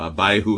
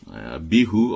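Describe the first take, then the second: First: The name is said the American way. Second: The name is said in a non-American way.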